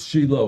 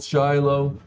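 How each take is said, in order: First: The name is pronounced the Hebrew way. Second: The name is pronounced the English way.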